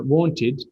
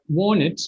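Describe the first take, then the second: First: "wanted" with the middle T sounded; careful "wanted", clear T; full form. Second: "want it" as "wan-nit", T dropped; linked wanted, heard as "want it"; reduced form. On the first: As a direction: say "wanted" as "wan-tid". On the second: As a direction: skip the middle T in "want it". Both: Shown as a demonstration. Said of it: "these things that depend on".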